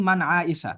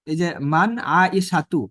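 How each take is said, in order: First: আয়েশা with the final তু dropped, ending open on আ; spoken form. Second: আয়েশাতু said slowly with the final তু clearly voiced; full classical form. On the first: Teacher shows how the name is said in everyday talk. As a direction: drop the ending, just আয়েশা. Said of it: "শেষের গোলতাটা উচ্চারণ হয় না". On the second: Teacher shows students the full Arabic form, slow and careful. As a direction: spell out every syllable of আয়েশাতু, ending on তু. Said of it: "এটা মূল হচ্ছে কি মান আয়েশাতু". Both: Shown as a demonstration.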